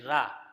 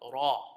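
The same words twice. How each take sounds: First: The r is light, with an empty mouth. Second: The r is heavy, with a full mouth. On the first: The speaker calls it wrong. "You don't say ra" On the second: The speaker calls it right. "you pronounce it with a full mouth"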